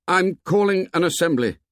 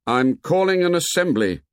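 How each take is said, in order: First: Higher-pitched call to a group; high-pitched announcement. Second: Louder second call; loudly. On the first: First call to the assembled boys. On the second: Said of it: "Ralph spoke again, loudly". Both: A narrator's reading.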